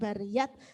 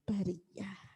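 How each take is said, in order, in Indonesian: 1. Kata ini berakhir dengan bunyi t. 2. Kata ini berakhir dengan bunyi h. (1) "bukan bariyat" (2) "tapi bari bariyah"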